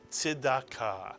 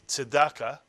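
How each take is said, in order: First: It is said with a Hebrew-style pronunciation. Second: It is said with an English-style pronunciation. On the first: "in Hebrew it is" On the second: "What you often hear in English"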